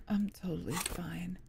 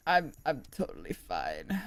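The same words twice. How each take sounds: First: Unvoiced whisper, much softer. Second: Said in the usual way. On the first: Shown as a demonstration. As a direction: breathe it out in a whisper.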